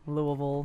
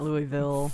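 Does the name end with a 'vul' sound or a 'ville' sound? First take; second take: vul; ville. First: The name ends with a reduced 'vul' sound. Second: The name ends with a full 'ville' sound. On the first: The speaker calls it right. "when you say vol, it sounds like how you would say Louisville" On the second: The speaker calls it wrong. "not Louisville"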